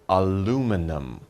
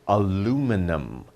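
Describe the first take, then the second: Both takes have the same delivery.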